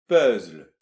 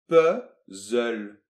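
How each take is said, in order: First: The z runs straight into the l. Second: An extra vowel sits between z and l. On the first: "Et après on a un Z suivi d'un L, donc ça fait puzzle" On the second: "on va intercaler un nouveau E, c'est-à-dire qu'il va y avoir deux E"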